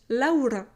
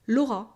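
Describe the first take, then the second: First: It is said with a Spanish accent. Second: It is said with a French accent. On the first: "when Spanish people are saying my name, they are saying it Laura" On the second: "Laura in French, it's normal"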